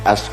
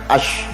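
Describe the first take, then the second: First: The consonant is a plain s sound. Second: The consonant is an sh sound. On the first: The speaker calls it wrong. "ngangge as" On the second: The speaker calls it right. "kudune kan ash"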